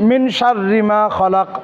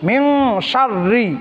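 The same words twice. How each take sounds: First: মিন শাররি said with a plain n, no ghunna; slow wrong take of মিন শাররি; without nasalising. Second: মিং with the n hidden in the nose; nasal ghunna. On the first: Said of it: "আমাদের হয়ে যায় কি মিন শাররিন". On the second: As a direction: hum the নুন through the nose: মিং শাররি. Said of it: "নাকের ভিতর লুকায় গুণনা করে পড়তে হবে". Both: Shown as a demonstration.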